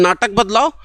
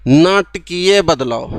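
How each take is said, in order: First: Said in the usual way. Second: नाटकीय बदलाव said slowly, syllable by syllable; slow model reading. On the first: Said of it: "ये बोलने में ठीक लग रहा है". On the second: Shown as a demonstration. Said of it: "पढ़ के देखो".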